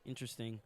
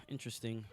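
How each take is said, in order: Both takes have the same delivery.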